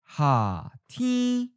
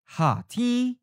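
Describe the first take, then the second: First: It is said slowly and carefully. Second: It is said at a natural speed. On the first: "and then slowly" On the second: "First natural speed"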